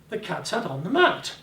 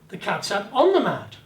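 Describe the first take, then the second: First: The word mat carries the emphasis. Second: The word on carries the emphasis. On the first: It was the mat, not the table. "The bloody mat, not the table, but the mat" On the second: It was on the mat, not elsewhere. "On the mat, not elsewhere"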